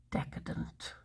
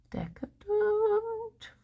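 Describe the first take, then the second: First: Hushed, whispered relish; barely voiced, mock-indulgent; savouring whisper. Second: High, soft, very drawn-out word; soft, slow mock-indulgent croon; exaggerated relish. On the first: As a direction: whisper it as if it's a guilty luxury. Savouring the breakfast idea. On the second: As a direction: stretch it out high and slow, hamming up the luxury. Savouring the word again, exaggerated.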